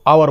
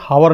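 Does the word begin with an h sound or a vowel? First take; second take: vowel; h sound. First: The word begins with a vowel sound. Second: The word begins with an h sound. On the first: The speaker calls it right. "एच silent रहता है ... इसको आवर बोलते हैं" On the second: The speaker calls it wrong. "इसमें हावर नहीं बोलते"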